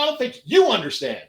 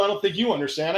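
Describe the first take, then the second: First: YOU thrown back higher and harder; retort, punching the word "you"; stress on YOU. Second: Said in the usual way. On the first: Acted. Throws cop's line back at him.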